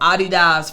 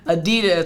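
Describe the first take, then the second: First: It is said the way people overseas say it. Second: It is said the usual American way.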